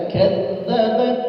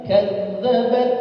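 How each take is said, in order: The two takes are said the same way.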